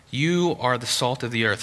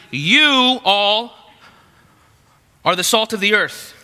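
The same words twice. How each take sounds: First: Said in the usual way. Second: "You all" drawn out high and loud; emphatic YOU. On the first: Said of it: "He starts and he says". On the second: Acted. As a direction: punch "You all", then pause before the rest. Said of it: "then he says emphatically".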